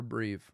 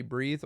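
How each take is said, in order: First: "breathe" ending in a v sound; mispronounced breathe. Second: Said in the usual way. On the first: Shown as a demonstration. Comic mocking own slip, "breathe" said as "breeve". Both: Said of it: "I could barely do either".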